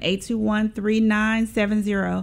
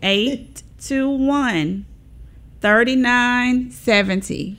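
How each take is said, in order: First: The number is said fast. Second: The number is said slowly.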